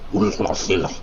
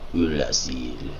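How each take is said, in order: First: It is said in a put-on monster voice. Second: It is said in a plain natural voice.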